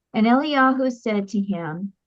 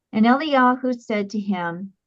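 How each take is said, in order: Both takes have the same delivery.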